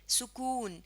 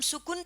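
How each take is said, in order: First: The vowel after the k is long. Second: The vowel after the k is short. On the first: The speaker calls it right. "यानी काफ की आवाज को लंबा करते हैं" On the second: The speaker calls it wrong. "लेकिन हम सुकुन तो नहीं पढ़ते"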